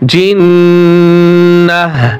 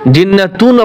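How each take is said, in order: First: The word ends with a soft h sound. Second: The word ends with a full 'tun' ending. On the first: The speaker calls it right. "অক্ফ করলে গোলতা কি হয়ে যায় মনে আছে? হা হয়" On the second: The speaker calls it wrong. "জিন্নাতুন আবার যেন কেউ না বলেন"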